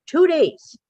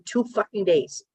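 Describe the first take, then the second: First: "two days" punched high and loud; "two days" as an indignant outcry; emphatic repeat. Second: Said in the usual way. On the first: Real, not acted. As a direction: hit "two days" in exasperation.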